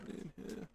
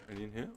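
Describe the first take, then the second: First: Whispered question while searching. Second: Said in the usual way. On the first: Real, not acted. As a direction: breathe the question, no voice. Searching chests while looting.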